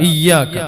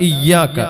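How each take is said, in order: No difference in how they are said.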